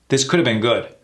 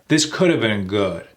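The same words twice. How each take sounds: First: The sentence is said at a faster pace. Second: The sentence is said at a slower pace.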